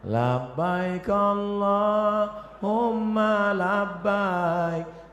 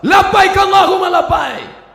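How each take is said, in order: First: It is said softly and gently. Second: It is said loudly and forcefully.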